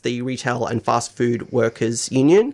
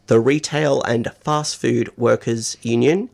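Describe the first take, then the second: First: The phrase is said at a normal pace. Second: The phrase is said slowly.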